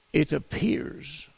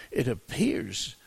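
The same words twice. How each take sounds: First: Appears drawn out slowly, higher and louder; stress on appears. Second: Appears said slowly and deliberately; slow down and dwell on appears; stress on appears. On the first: Preacher stressing appears to his congregation, slow and weighted. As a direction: lean hard on appears, slowly. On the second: Preacher repeating appears to the church, slow and deliberate. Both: Shown as a demonstration. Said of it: "and I emphasize the word appears".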